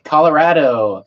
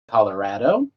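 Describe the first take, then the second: First: The word is read flat, with no rising tune. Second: The word rises at the end like a question.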